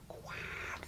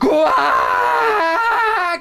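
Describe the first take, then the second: First: It is said quietly. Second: It is said loudly.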